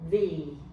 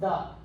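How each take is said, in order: First: The vowel is a different, fuller sound. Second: The vowel is a weak, unstressed uh sound. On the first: The next word starts with a vowel sound. "变成 the" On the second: This is the usual form. "本来是 the"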